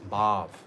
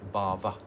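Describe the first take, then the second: First: The word ends on the v sound. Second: The word ends with an extra a vowel. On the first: It means spiritual emotion. The speaker calls it right. "It's bhav" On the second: It means material existence. The speaker calls it wrong. "not bhava"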